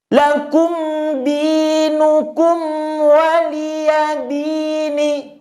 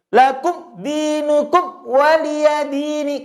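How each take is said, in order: First: The m sound is kept clear and audible. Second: The m sound is swallowed and barely heard. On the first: The speaker calls it right. "Maka harus ada sisa suara mim sedikit" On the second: The speaker calls it wrong. "jadi tidak boleh lakum dinukum waliyadini. Kurang tepat"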